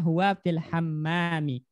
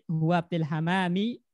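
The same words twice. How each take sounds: First: The m sound is held long, doubled. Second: The m sound is short, single. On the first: He is in the bathroom. The speaker calls it right. "Tasdid mimnya ya" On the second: It refers to a dove instead. The speaker calls it wrong. "kalau tanpa tasdid"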